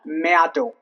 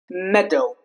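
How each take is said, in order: First: The A is pronounced. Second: The A is silent. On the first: The speaker calls it wrong. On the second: The speaker calls it right.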